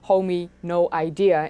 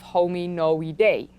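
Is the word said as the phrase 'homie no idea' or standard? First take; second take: homie no idea; standard. First: It sounds like the phrase homie no idea. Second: It is said as one ordinary scientific word. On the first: It is a joke that is easier to remember. "should be pronounced as homie no idea" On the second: It is the official pronunciation. "instead of"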